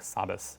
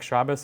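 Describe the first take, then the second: First: The word begins with an s sound. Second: The word begins with a sh sound. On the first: "more sa-like" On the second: "more sh-like"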